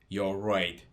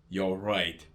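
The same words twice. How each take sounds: The two takes are said the same way.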